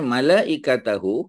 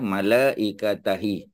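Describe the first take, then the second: First: The word ends with a 'hu' sound. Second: The word ends with a 'hi' sound. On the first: The speaker calls it right. "dia kekal dengan who" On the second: The speaker calls it wrong. "malaikatahi tak boleh"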